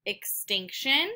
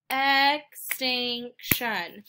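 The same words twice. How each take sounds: First: Said in the usual way. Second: "extinction" in three slow, separated beats; syllable by syllable. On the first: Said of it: "finding out how many syllables". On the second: Shown as a demonstration. Teacher clapping three syllables, "extinction" slowly split up. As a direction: split "extinction" as ex, tinc, shun. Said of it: "I clap three times".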